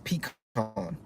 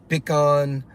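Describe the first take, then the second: First: It is said the North Carolina way. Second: It is said with a Cajun accent.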